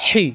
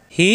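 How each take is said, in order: First: "হি" with a constricted h; strong pharyngeal h in "হি"; pressed throat ha. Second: Easy glottal h in "হি"; light ha. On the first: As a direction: force "হি" through a tight throat. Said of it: "এই হি চাপ দিয়ে". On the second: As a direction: breathe out "হি" freely. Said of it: "এই হা দিয়ে হবে না". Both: Shown as a demonstration.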